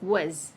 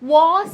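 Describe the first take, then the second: First: The vowel is reduced and weak. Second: The vowel is full and clearly pronounced. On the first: The speaker calls it right. "That gets reduced to was" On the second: The speaker calls it wrong. "Was എന്ന് പറയില്ല"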